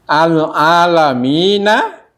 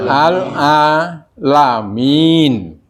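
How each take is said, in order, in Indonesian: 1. Frasa ini berakhir dengan bunyi vokal. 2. Frasa ini berakhir dengan konsonan, vokalnya dihilangkan.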